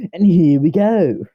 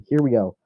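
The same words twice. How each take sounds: First: Loud, high, drawn-out kickoff; showy announcement. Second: Said in the usual way. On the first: Pretend. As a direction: belt it out slowly like a big show opener. Showy restart, then said plainly.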